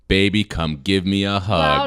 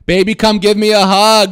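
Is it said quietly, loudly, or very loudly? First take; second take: loudly; very loudly. First: It is said loudly. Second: It is said very loudly.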